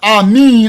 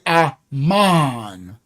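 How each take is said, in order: First: The last vowel sounds like 'ee'. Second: The last vowel sounds like 'ah'. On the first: The speaker calls it wrong. "I won't say" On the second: The speaker calls it right. "I'll say Aman"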